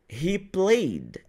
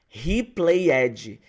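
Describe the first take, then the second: First: The -ed ending is a subtle final sound. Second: The -ed ending is said as an extra syllable. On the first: The speaker calls it right. "pronunciar a letra D no final de forma bem sutil" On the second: The speaker calls it wrong. "ela fala assim, ó"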